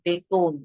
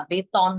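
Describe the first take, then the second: First: বেতন said as beton; correct pronunciation. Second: বেতন said slowly as betɔn; wrong take of বেতন. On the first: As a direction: say বেতন with the ending like ও. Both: Shown as a demonstration. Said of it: "না, বেতন না".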